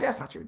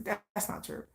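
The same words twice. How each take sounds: First: Said in the usual way. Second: Breathy hushed whisper of That's not true; almost voiceless, trailing That's not true; whispered denial. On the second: Retold or imitated. Denying the rumors, repeated.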